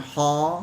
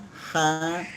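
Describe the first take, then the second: First: The syllable has a heavy, rounded o-like vowel. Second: The syllable has a thin, open a vowel. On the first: The speaker calls it wrong. "bukan ho" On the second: The speaker calls it right.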